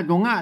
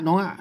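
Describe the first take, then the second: Both takes have the same delivery.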